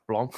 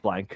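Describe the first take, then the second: First: The name is said the French way. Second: The name is said like English blank. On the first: "like it's French" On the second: "It's probably just blank"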